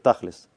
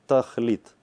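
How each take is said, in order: First: The word ends with an s sound. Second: The word ends with a t sound.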